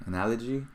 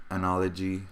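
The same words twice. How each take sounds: First: ANALOGY softer, rising at the end like a question. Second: Said in the usual way. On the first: Real, not acted. Host doubts his own word, ANALOGY with a questioning rise.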